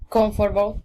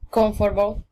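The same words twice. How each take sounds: First: A middle syllable is dropped from the word. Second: The same.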